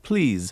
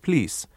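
First: It ends with a z sound. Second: It ends with an s sound. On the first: "we have it quite frequently" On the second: "which they pronounce routinely as an S"

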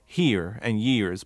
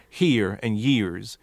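First: The R sounds at the word ends are pronounced. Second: The R sounds at the word ends are pronounced.

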